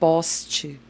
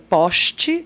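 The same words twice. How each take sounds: First: The s before t sounds like s. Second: The s before t sounds like sh. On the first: "aqui em São Paulo a gente fala ... A gente faz um S" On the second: "o carioca falando porta e poste ... eles fazem um X no lugar"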